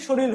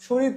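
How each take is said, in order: First: শরীর with r turned to l at the end; dissimilated pronunciation. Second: Said in the usual way. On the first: Shown as a demonstration. Teacher summing up the sound change, শরীর said shoril. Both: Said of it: "র পরিবর্তিত হয়ে ল হয়েছে".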